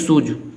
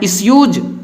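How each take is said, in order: First: It is said without a 'y' before 'oo'. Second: It is said with a 'y' before 'oo'. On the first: The speaker calls it wrong. "कुछ लोग इसको पढ़ते हैं इसूज" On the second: The speaker calls it right. "लेकिन आपको पढ़ना है इसयूज"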